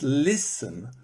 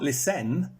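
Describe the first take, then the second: First: The stress is on the first syllable. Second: The stress is on the last syllable. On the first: The speaker calls it right. "the stress is on the beginning" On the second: The speaker calls it wrong. "It's not listen"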